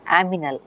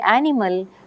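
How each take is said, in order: First: The m sound comes before the n sound. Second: The n sound comes before the m sound. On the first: This is a small child's form of the word. "the child says aminal" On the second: This is the adult form of the word. "instead of saying animal"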